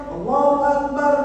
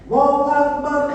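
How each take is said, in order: No difference in how they are said.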